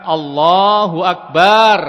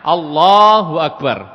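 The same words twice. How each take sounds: First: The 'ba' sound is held long. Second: The 'la' sound is held long. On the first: It calls God drums. The speaker calls it wrong. "baknya dipanjangkan" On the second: God is the greatest. The speaker calls it right.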